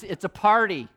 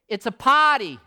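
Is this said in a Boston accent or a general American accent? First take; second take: general American; Boston. First: It is said in a general American accent. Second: It is said in a Boston accent. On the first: "which in Bostonian means" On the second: "he had that Boston accent"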